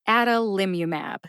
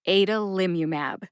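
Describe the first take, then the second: First: The first vowel is a short 'a' as in 'hat'. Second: The first vowel is not the short 'a' of 'hat'. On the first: "Adalimumab is my preferred pronunciation. A, like the short A in hat" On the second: "the U S P Dictionary version"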